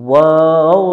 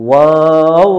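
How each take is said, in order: The two takes are said the same way.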